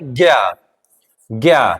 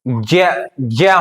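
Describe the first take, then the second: First: The syllable begins with a g sound. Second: The syllable begins with a j sound. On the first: This is the everyday popular pronunciation. "लोक प्रचलन में हमारा जो उच्चारण है" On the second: This is how it should be pronounced by its letters. "इसका उच्चारण जो है ज्य ज्य होना चाहिए"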